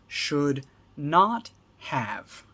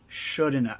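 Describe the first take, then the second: First: All three words are said fully and separately. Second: All three words merge into one quick word.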